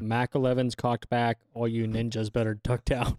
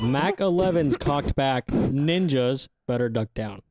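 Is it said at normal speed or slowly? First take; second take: normal speed; slowly. First: It is said at normal speed. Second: It is said a little more slowly.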